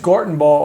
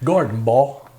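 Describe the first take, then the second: First: It is said in a plain accent. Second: It is said in a South Louisiana accent.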